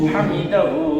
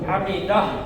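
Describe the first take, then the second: First: The word ends with a final 'hu' syllable. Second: The word ends with a bare 'h' sound. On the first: The reading continues without stopping. "হা উল্টা পেশ হু" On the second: The reading stops at this word. "থামলে হু পড়বো না যজম পড়বো?"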